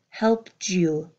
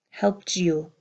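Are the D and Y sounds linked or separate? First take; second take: linked; linked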